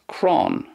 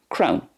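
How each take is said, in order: First: The vowel sounds like the 'aw' in lawn. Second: The vowel sounds like the 'ow' in crown. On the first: "In Connacht, then, it's more like crawn" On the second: "that's the way it's pronounced in Munster"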